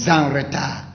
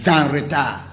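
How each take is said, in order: No difference in how they are said.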